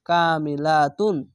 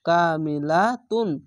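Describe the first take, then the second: First: The word ends with the syllable 'tun'. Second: The word ends with the syllable 'tun'.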